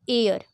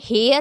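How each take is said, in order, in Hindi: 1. यह स्वर से शुरू होता है, जैसे air। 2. यह h की आवाज़ से शुरू होता है, जैसे hair। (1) "क्योंकि यहाँ पे जो एच है ना वो साइलेंट है" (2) "अब इसे हम हेयर अगर पढ़ने लगेंगे"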